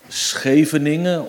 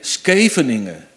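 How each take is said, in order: First: It begins with the Dutch 'sch' sound. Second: It begins with a 'sk' sound. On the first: A native Dutch speaker is saying it. The speaker calls it right. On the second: A German is trying to pass as Dutch. The speaker calls it wrong.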